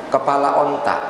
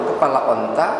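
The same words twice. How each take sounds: The two takes are said the same way.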